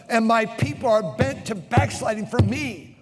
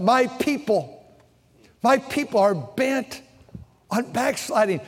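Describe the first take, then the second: First: Verse half-sung with the music; chanted verse. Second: Slow, weighty scripture reading; slow emphatic reading. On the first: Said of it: "Look, look, look what it says". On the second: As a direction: lean on each word of the verse. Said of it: "Look what it says". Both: Shown as a demonstration.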